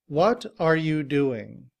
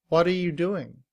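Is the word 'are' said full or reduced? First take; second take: full; reduced. First: The word 'are' is said in full. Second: The word 'are' shrinks to a weak 'uh'. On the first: "In citation form" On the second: "are is simply written as a schwa and sounds like uh"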